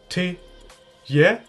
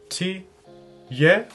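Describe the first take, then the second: The two takes are said the same way.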